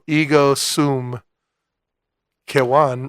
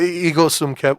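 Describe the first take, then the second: First: The name is said with a W sound. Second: The name is said with a V sound.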